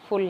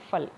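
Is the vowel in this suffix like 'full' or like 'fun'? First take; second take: full; fun. First: The vowel sounds like the one in 'full'. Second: The vowel sounds like the one in 'fun'. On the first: The speaker calls it wrong. "फुल नहीं" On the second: The speaker calls it right. "जो correct pronunciation होगी वो फल होगी"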